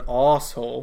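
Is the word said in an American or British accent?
British. It is said in a British accent, like arsehole.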